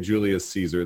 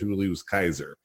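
First: Caesar begins with a soft S sound. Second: Caesar begins with a hard K sound. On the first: This is not how the Romans said it. The speaker calls it wrong. "They didn't say Julius Caesar" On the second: This is how the Romans said it. The speaker calls it right. "They said Julius Kaiser"

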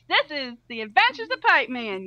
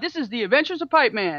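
First: It is said in a put-on female voice. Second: It is said in a man-like voice.

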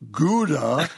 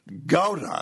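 First: The word has an American pronunciation. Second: The word has a Dutch pronunciation. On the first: The speaker calls it wrong. "not pronounced Gouda. She says that may be the way it's said in backwoods Wisconsin" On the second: The speaker calls it right. "The correct pronunciation is Gouda"

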